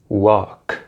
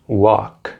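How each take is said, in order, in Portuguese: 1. O som do L é mudo na palavra. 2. O som do L é mudo na palavra.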